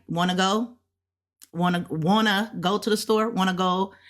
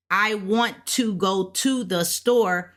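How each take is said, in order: First: Relaxed everyday English with "Wanna" blended into one word; quick contracted "Wanna go", no separate "to"; casual wanna. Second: Slow, spelled-out "want to go to", each word distinct; careful textbook delivery with "want to" unjoined; full, careful words. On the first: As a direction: run "want to" together as "wanna". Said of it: "we say it a little bit faster". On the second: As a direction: say "want to" as two separate, fully sounded words. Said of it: "instead of us saying". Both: Shown as a demonstration.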